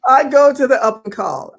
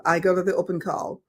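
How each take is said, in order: First: Higher, louder triumphant announcement; "I go to the open call" punched proudly; emphatic. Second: Said in the usual way. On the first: Shown as a demonstration. Telling friend the comeback plan, higher louder proud.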